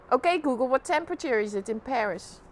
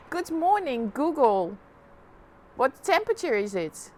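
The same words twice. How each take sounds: First: Louder, spelled-out command; repeating to voice assistant. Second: Repeating to voice assistant. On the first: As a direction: say it clearly for the speaker. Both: Real, not acted.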